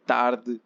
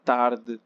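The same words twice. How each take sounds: The two takes are said the same way.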